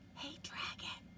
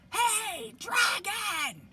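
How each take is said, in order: First: It is whispered very softly. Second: It is shouted very loudly.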